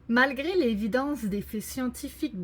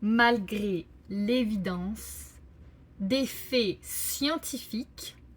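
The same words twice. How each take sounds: First: It is read at a normal, flowing speed. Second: It is read slowly, in separate chunks. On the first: "je vais d'abord lire une fois la phrase au complet" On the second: "je vais la découper euh, plus lentement"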